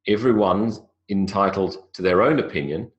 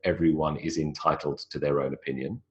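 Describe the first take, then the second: First: 'Everyone is' is contracted to 'everyone's'. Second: 'Everyone is' is said as two full words. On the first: The speaker calls it right. "I do it more naturally" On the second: The speaker calls it wrong. "I don't say"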